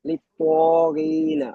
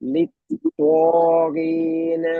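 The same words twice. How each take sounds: First: The gh sound is said clearly and distinctly. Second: The gh sound is said weakly and unclearly. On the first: The speaker calls it right. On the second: The speaker calls it wrong.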